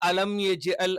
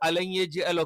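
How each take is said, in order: First: The m sound is fully and clearly pronounced. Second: The m sound blends into the following y. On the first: The speaker calls it right. "Correct ആയിട്ട് ഉച്ചരിക്കണം" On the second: The speaker calls it wrong. "മീമും യാവും കൂടി ചേർന്നിട്ട് അത് രണ്ടുമല്ലാത്ത ഒരു അക്ഷരം വരും"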